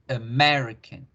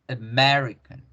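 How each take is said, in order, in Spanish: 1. Las vocales átonas se reducen a un 'uh' débil. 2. Las vocales átonas se reducen a un 'uh' débil.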